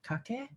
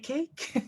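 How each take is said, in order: First: Pronounced the way Maori or Hawaiian speakers might. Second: Pronounced the local way, like the word cake. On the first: Outsiders from other Pacific peoples might say it this way. "our Maori brothers and sisters and Hawaiian brothers and sisters might pronounce it" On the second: This is how the community itself says it. "but we say cake"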